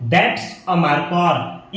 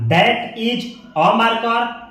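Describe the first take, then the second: First: 'That is' is squeezed quickly into one word. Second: 'That is' is said as two separate words.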